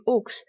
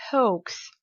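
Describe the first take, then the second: First: "hawks" the French way, silent h; French pronunciation. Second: "hoax" with sounded h and diphthong; English pronunciation. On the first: Teacher recalling the French version for learners, French pronunciation. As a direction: say "hawks" as French "oks", one pure vowel. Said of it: "la prononciation française qui était". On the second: Teacher confirming the correct word for learners, English pronunciation. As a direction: say "hoax" as English "hohks", gliding the vowel. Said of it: "Donc c'est bien". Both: Shown as a demonstration.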